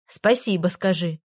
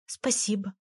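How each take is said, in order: First: Said in the usual way. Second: Тише, смущённое «Спасибо»; смущённо поблагодари почти вполголоса; тихо и смущённо. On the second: Acted. Аля смущённо благодарит. (Аля тихо благодарит Егора за розу)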